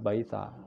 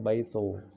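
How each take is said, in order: First: The final vowel is a long 'a' sound. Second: The final vowel is an 'o' sound. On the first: This is the Eastern dialect form. "timur mengucapkannya baita" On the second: This is the Western dialect form. "Suryani barat mengucapkannya baito"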